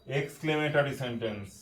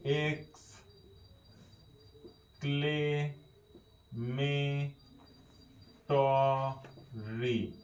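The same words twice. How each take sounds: First: Said in the usual way. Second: "exclamatory" extremely slowly, syllable by syllable; spelling out "exclamatory". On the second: Shown as a demonstration. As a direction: dictate "exclamatory" with a pause after each drawn-out syllable. ("Exclamatory" খুব ধীরে, ভেঙে ভেঙে) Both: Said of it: "বাংলাটা লিখে নি".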